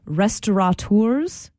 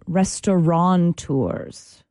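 First: It is said without an n in the middle. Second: It is said with an n in the middle. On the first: The speaker calls it right. "the word is restaurateurs" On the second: The speaker calls it wrong. "and not restaurateurs"

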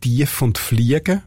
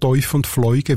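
First: The words have a plain long vowel. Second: The words have a diphthong vowel. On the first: This is the northwestern form used in the Seeland. "zum Teil sagt man dort Tief und Fliegen" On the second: This is the usual Bernese form. "anstatt Teuf und Fleugen"

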